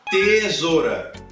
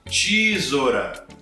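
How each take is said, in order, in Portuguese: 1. O primeiro som é um "t" simples. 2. O primeiro som é um som de "ch". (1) "eu estou pronunciando T" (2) "ou Ti"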